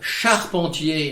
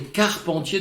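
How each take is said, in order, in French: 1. Le mot commence par un son 'sh'. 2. Le mot commence par un son 'k'. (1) "charpentier dans un cas" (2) "carpentier de l'autre"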